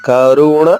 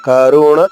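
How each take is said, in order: Both takes have the same delivery.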